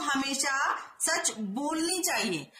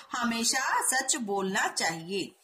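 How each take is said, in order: First: हमेशा सच बोलनी चाहिए read slowly, word by word; slow careful reading. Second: हमेशा सच बोलना चाहिए read slowly and evenly; slow careful reading. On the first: Teacher reading the wrong sentence slowly to students. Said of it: "बोलनी चाहिए, बोलना चाहिए". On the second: Teacher dictating the corrected sentence to students. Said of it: "सही वाक्य क्या होगा". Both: Shown as a demonstration.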